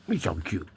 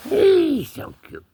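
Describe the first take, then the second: First: Said in the usual way. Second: High-pitched, slow pet talk; high cooing. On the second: Pretend. Owner gushing over the cat, high slow cooing. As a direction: coo it slowly up high.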